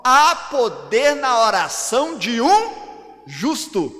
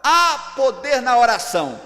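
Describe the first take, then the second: First: Slow, loud, weighty stress through "de um justo"; corrected verse. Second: "há poder na oração" declared loudly as a whole sentence; loud "há poder", closed off at "oração"; misquoted verse. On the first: Preacher showing what the Bible really says, corrected verse. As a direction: stretch "oração de um", then set "justo" apart. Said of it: "A Bíblia diz assim". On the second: Preacher showing what the Bible doesn't say, misquoted verse. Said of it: "A palavra do Senhor não diz assim". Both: Shown as a demonstration.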